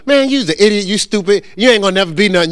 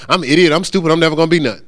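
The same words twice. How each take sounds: First: Higher-pitched acted put-down; mock insults. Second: Mock-submissive echo, dropped from the insult; meek parroting. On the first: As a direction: play a person running somebody down. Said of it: "Somebody comes up to you and go". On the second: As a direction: accept the put-down and repeat it obediently. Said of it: "You go".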